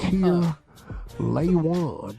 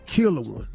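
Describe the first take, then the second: First: The name sounds like 'Kier Laywan'. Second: The name sounds like 'Killer One'. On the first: "Kier as in he doesn't care. And lay one" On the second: "let me see how you would mispronounce it though"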